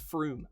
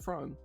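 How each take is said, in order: First: The vowel is pronounced like 'oo'. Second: The vowel is pronounced like 'oh'. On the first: The speaker calls it right. "Is there two O's?" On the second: The speaker calls it wrong. "it's not Frome"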